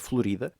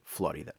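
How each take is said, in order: First: The name is said the Portuguese way. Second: The name is said the English way. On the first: "a forma correta em português é Florida" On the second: "vamos aqui utilizar a fonética inglesa e dizer Flórida"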